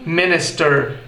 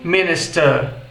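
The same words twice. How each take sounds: First: It is said with an American accent. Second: It is said with a British accent. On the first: "no inglês americano fica" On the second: "Já no inglês britânico"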